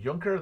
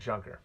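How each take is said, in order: First: The word is pronounced the German way. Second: The word is pronounced the American way. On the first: The speaker calls it wrong. "That's stupid" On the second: The speaker calls it right. "I'm an American. I'm calling it Junker"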